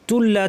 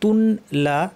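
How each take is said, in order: First: The n merges fully into a doubled l. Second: The n is pronounced separately before the l. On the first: "ইদগাম হয়ে গেছে, নুনের অস্তিত্ব থাকবে না, লাম পড়তে হবে" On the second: "ছিল"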